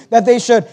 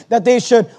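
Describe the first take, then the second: No difference in how they are said.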